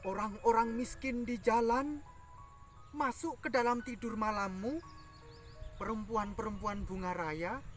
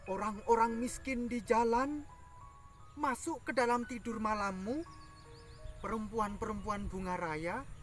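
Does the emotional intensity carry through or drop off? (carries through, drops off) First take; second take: drops off; drops off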